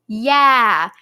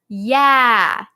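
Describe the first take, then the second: Both takes have the same delivery.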